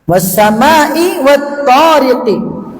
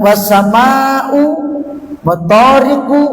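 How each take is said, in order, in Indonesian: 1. Kedua kata berakhir dengan vokal i. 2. Kedua kata berakhir dengan vokal u. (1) "As-samaa'i di kasrah, at-thariqi di kasrah" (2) "Bukan was-samaa'u wat-thariqu, enggak"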